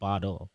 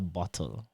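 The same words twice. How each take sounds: First: The double T sounds like a soft D. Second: The double T sounds like a clear T. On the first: "double T's are pronounced as D's" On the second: "not a bottle"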